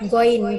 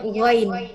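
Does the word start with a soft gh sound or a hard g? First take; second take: hard g; soft gh. First: The word starts with a plain, hard g sound. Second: The word starts with a soft, breathy gh sound. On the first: The speaker calls it wrong. "bukan goin" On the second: The speaker calls it right. "ghain karena ada H di sini kayak samar-samar aja"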